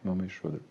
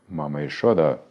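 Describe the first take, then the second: First: The voice is light and gentle, like a child's. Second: The voice is deep, loud and booming. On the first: He is speaking to his mother. "ну вот как у тебя" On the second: He is speaking to the demigods. "У него голос гремит, как тучи, как гром"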